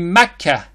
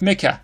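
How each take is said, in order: First: It is said with the Arabic pronunciation. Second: It is said with the anglicized English pronunciation. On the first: The speaker calls it right. "even though it's actually Mecca" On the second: The speaker calls it wrong. "not Mecca"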